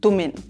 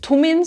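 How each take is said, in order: First: The word begins with a soft D sound. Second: The word begins with a hard T sound. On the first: "sprechen wir das T viel weicher aus" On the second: "sagen nicht tummin"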